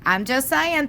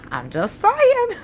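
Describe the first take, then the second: First: Said in the usual way. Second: Sing-song tease. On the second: Real, not acted.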